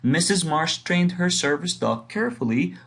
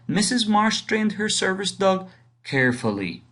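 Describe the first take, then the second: First: The word carefully is stressed. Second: The word carefully is not stressed.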